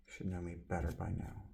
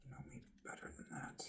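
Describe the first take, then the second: First: Said in the usual way. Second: Breathy whisper, much softer. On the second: Shown as a demonstration. Repeating the Simon line to himself in a whisper. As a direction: drop to a secret whisper.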